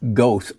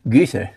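First: The first vowel is a plain, non-umlaut vowel. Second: The first vowel is a rounded front vowel. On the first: The speaker calls it wrong. "mispronounced by most Americans as" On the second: The speaker calls it right. "It's umlauted"

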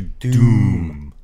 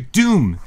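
First: The vowel is stretched out longer. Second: The vowel is short and plain. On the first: The speaker calls it right. "There's an extra O in his name. It should be Dr. Doom" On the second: The speaker calls it wrong. "We don't pronounce it properly"

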